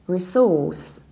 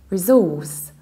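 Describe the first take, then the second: No difference in how they are said.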